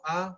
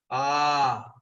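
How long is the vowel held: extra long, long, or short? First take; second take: short; extra long. First: The vowel is held only briefly. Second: The vowel is drawn out very long. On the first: "la forma del señor eh, Vamana, que era enano" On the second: "Mahapurusha cuando, bueno, se expande completamente"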